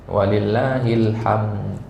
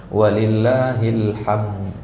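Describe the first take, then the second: The two takes are said the same way.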